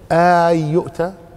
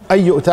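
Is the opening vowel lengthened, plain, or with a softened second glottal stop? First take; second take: lengthened; plain. First: The opening vowel is drawn out into a long vowel. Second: The opening is a plain short glottal stop vowel. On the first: It is a rebuking question. "أو اعتبرها مد" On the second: It is a plain statement of purpose. "على ظاهرها كما هي هنا"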